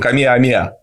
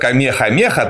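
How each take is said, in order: First: No h sound is pronounced inside the name. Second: An h sound is pronounced inside the name. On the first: The speaker calls it right. "там хэ не читается, очень певучий" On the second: The speaker calls it wrong. "у нас неправильно называют Камеха-Меха"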